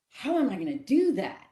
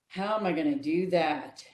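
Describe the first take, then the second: First: It sounds light, eager and excited. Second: It sounds heavy, discouraged and defeated. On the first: The asker is curious to find a way. The speaker calls it right. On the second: The asker expects to fail. The speaker calls it wrong. "that one that's going to look for the ways to fail"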